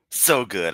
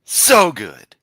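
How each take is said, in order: First: Said in the usual way. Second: Loud, thrilled exclamation; real delight at the comeback. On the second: Real, not acted. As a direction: cheer it out loud.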